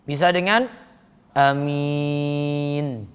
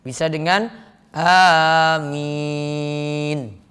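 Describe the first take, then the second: No difference in how they are said.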